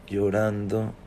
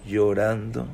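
No difference in how they are said.

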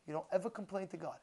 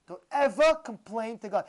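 First: Said in the usual way. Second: Louder, hit EVER and COMPLAIN hard; emphatic warning. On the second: Real, not acted. Preacher warns listeners against complaining to God, emphatic. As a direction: drive home EVER with a raised, forceful voice.

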